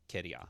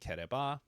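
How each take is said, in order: First: The word is contracted into a shorter casual form. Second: The word is said in full, three syllables. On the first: The speaker sounds casual and rural. "a southern, out in the boonies accent" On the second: The speaker sounds more sophisticated or older. "instead of saying kereba"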